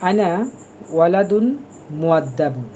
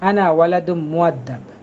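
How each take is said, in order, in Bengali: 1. শেষের -un এন্ডিংগুলো স্পষ্টভাবে উচ্চারণ করা হয়। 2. শেষের এন্ডিং বাদ দেওয়া হয়; n, m-এ মিশে যায়। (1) "এই জন্য আমি একটু ভেঙে ভেঙে পড়ছি।" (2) "শেষের এইগুলো ওরা কখনো উচ্চারণ করবে না। ওরা বলবে"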